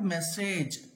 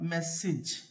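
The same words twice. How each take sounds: First: The final syllable ends with an 'ej' sound. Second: The final syllable ends with an 'ij' sound. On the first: The speaker calls it wrong. "It's not మెసేజ్" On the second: The speaker calls it right. "ఇజ్ అని చెప్తాం"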